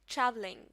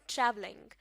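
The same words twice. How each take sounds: No difference in how they are said.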